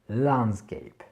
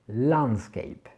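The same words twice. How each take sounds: No difference in how they are said.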